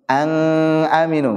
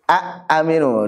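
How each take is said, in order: First: The n becomes a hidden nasal ng sound. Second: The n is merged away into the vowel. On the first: "bukan ang aminu, enggak enggak cocok itu" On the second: "dibaca idgham juga enggak cocok itu"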